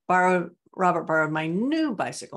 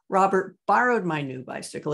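First: The word 'new' is stressed. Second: The word 'borrowed' is stressed. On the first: It was the new bicycle and not the old one. "not my old one" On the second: He borrowed it rather than stole it. "He didn't steal it"

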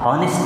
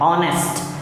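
First: The word begins with an h sound. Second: The word begins with a vowel sound. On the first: The speaker calls it wrong. "ऑनेस्ट नहीं" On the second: The speaker calls it right. "H silent है"

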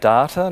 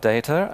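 First: It is pronounced the Australian way. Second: It is pronounced in a non-Australian way. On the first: This is how the speaker will say it. "I'll also say data" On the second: This is how the speaker will not say it. "not data"

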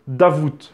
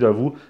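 First: The name ends with an audible T sound. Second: The name ends on a vowel, with no T. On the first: "il paraîtrait qu'on prononce Davout, le T à la fin" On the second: "moi je dis Davout parce que j'ai toujours dit Davout"

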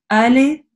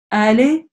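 No difference in how they are said.

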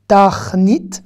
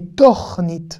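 First: The first vowel is an a sound. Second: The first vowel is an o sound. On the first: The speaker calls it wrong. "on ne lira pas tachnit" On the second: The speaker calls it right. "mais tornit"

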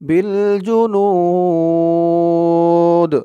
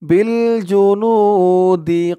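First: The 'nu' vowel is long and ends in 'd'. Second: The 'nu' vowel is short and flows on. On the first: The reciter stops here. "থামলে এখানে তিন আলিফ টান টান দিয়ে এই দালকে ধরবে" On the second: The reciter does not stop here. "এখানে যদি আপনারা না থামেন ... এক আলিফ টানি হবে"

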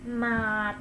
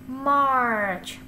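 First: It is said like the Vietnamese word 'mát'. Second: It is said as the English word March. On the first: The speaker calls it wrong. "March là không đúng" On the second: The speaker calls it right. "đọc là March"

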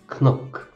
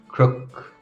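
First: The word starts with a 'kn' sound. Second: The word starts with a 'kr' sound.

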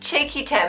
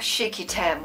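First: The name is said in a plain, normal voice. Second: The name is said in an odd, put-on voice. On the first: The speaker calls it right. "It's just Cheeky Tam" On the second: The speaker calls it wrong. "why am I speaking weird?"

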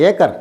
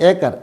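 Both takes have the same delivery.

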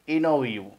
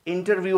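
First: The t after n is left silent. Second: The t after n is clearly pronounced. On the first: The speaker calls it right. "जबकि ये इनोव्यू है" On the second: The speaker calls it wrong. "इंटरव्यू हम लोग कहते हैं"

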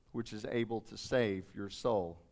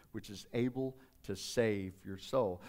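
No difference in how they are said.

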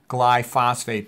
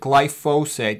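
First: The word is said with a clear 'phosphate' sound. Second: The word is said without a clear 'phosphate' sound. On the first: "I like to pronounce it glyphosate because there's a phosphate attached to a glycine" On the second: "That's actually the proper way to pronounce it"

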